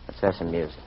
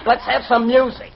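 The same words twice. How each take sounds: First: Low, hushed invitation; soft suggestion. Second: Insistent demand. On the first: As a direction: murmur it gently. Quiet coaxing, then repeated louder. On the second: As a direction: press the request impatiently. Repeats the request more insistently. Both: Acted.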